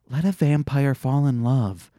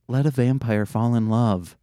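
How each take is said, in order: First: It is said with a lot of emotion. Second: It is said with little emotion.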